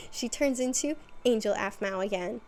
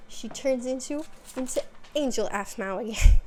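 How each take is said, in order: First: Said in the usual way. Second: Louder, cracking up by the end; breaking into laughter. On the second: Real, not acted. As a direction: lose it laughing on the last words. Breaks into laughter mid-sentence, then retakes it.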